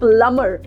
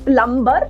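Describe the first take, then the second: First: The b sound is silent. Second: The b sound is pronounced. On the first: The speaker calls it right. "बी को हम नहीं pronounce करते" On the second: The speaker calls it wrong. "नहीं"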